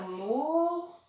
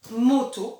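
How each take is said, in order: First: "moto" as a long rising mooo, pause, then to; split into syllables. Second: Said in the usual way. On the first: Shown as a demonstration. Teacher slowing the word for pupils, "moto" pulled apart. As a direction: stretch the first syllable of "moto" and leave a gap before the last. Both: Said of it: "combien de syllabes dans moto".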